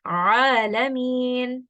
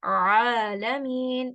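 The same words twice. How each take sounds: First: Alamin with a slow constricted ain from mid throat; teacher contrasting the correct ain in Alamin; ain pronunciation. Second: Alamin with a clean glottal hamza start, slow; teacher showing the wrong hamza in alamin; hamza pronunciation. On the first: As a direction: stretch out Alamin, squeezing the first sound. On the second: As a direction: say alamin with a light catch, no squeeze. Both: Shown as a demonstration. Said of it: "let's listen to that difference".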